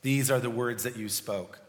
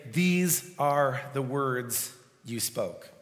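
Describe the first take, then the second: First: Said in the usual way. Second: Drawn out slowly and reverently; slow, hushed scripture line; slow solemn quote. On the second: Shown as a demonstration. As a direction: let each word land slowly. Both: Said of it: "we can look at this and say".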